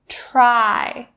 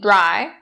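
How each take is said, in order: First: The first sound is voiceless, like 'tr'. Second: The first sound is voiced, like 'dr'. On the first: The speaker calls it right. "So it should be the voiceless tr, tr sound" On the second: The speaker calls it wrong. "Don't say dry. That's not correct"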